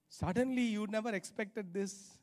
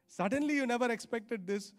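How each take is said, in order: Both takes have the same delivery.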